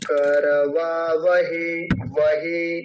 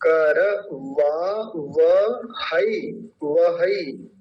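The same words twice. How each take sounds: First: वहे said slowly with a plain e ending, the common mistake; wrong demo. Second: करवावहई said very slowly, ending वहई with ऐ as अ-ई; correct vowel demo. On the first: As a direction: imitate the mistaken करवा वहे. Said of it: "कुछ लोग उच्चारण क्या करते हैं". (गलत उच्चारण: वहे) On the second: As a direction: split कर वा व हई deliberately, ending वहई. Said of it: "कर नहीं बोलेंगे". (सही उच्चारण: वहई, धीरे-धीरे) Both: Shown as a demonstration.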